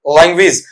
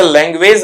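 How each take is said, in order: First: लैंग्वेज as "lang-wiz", short final vowel; corrected pronunciation. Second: लैंग्वेज as "leng-wayz", long last vowel; common mispronunciation. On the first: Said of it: "क्या पढ़ा जाएगा आपका वहां पर?". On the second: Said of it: "इसे लैंग्वेज नहीं पढ़ेंगे". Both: Shown as a demonstration.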